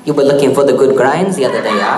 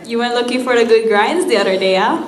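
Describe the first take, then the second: First: Quick, loud attempt at a pidgin accent; imitating the local teacher, laughing; tourist's bad Hawaiian pidgin; mock Hawaiian pidgin. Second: Quick, loud pidgin line with the rising yeah at the end; Hawaiian pidgin. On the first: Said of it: "I'm really bad with accents". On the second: Shown as a demonstration. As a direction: rattle it off like a Hawaii local. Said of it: "let's try it one more time".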